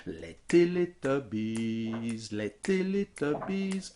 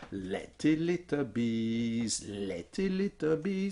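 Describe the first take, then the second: First: Slow sung "les Teletubbies", "les" as a light pickup and "Teletubbies" on the downbeat; les as upbeat. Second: Slow sung "les Teletubbies" with "les" on the downbeat; wrong stress on les. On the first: Teacher demonstrates correct prosody with the upbeat. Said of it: "faire arriver le les en anacrouse". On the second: Teacher demonstrates clumsy prosody on "les". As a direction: sing it badly, landing "les" on the strong beat. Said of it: "ça marche pas". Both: Shown as a demonstration.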